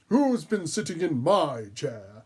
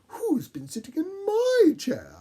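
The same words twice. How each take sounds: First: It is said in a gruff, growling voice. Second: It is said in a mellow, medium voice.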